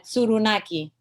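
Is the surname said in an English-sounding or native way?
native. The name is said with native sounds. "the proper way"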